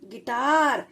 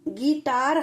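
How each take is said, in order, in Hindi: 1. पहला स्वर छोटा और जल्दी बोला जाता है। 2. पहला स्वर लंबा खींचकर बोला जाता है।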